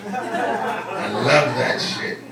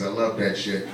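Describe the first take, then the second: First: Very slow, stretched LOVE; drawn-out emphasis. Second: Low, soft relish; low aside. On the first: Comic savoring the irony, drawn-out emphasis on love. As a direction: linger long on "love". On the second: Comic on abortion opponents eating eggs, low aside. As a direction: drop the pitch and volume, savoring it. First take of repeated punchline. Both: Real, not acted.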